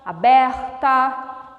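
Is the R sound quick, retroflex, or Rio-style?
Rio-style. The R is said the Rio de Janeiro way. This is how Rio de Janeiro speaks. "No Rio de Janeiro, o R já é diferente"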